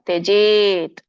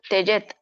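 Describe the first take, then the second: First: The second syllable has a long vowel. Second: The second syllable has a short vowel. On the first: The speaker calls it right. "ದೀರ್ಘ ಇದೆ" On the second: The speaker calls it wrong. "ತ್ಯಜತ್ ತ್ಯಜತ್ ಅಲ್ಲ"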